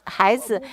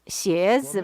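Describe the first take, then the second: First: The word is said the Hunan dialect way. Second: The word is said the standard Mandarin way.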